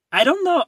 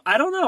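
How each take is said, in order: First: High, loud squeal with a falling end; squealing dodge. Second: High, loud squeal ending on a rise; squealing dodge, rising. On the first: Teased about the show, squealing a coy refusal. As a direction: squeal it out, playfully avoiding answering. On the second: Still teased about the show, squealing with a rising end. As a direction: squeak it again as a giggly question. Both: Real, not acted.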